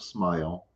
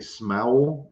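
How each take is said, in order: First: The vowel sounds like 'eye', giving 'smile'. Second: The vowel sounds like 'ow', giving 'smowl'. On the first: The usual way of saying the word. "instead of smile" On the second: A child's way of saying the word. "she would say smowl instead of smile"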